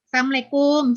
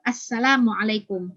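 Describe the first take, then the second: First: The greeting is said in a slurred way. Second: The greeting is said clearly and in full. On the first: The greeting is being joked with. The speaker calls it wrong. "Ini banyak sekali nih anak-anak tuh yang saya dengar" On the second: The greeting is said as taught. The speaker calls it right. "Jadi bacalah sesuai dengan diajarkan"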